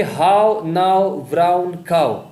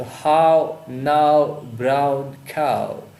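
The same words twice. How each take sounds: First: "How now brown cow" word by word, louder and slow; vowel emphasis. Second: "How now brown cow" very slowly, each vowel stretched long; drawn-out vowel. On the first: Teacher reading an assonance example, "How now brown cow" slow and strong. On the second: Teacher showing the repeated sound, "How now brown cow" stretched out. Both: Shown as a demonstration. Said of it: "ओ sound का repetition है".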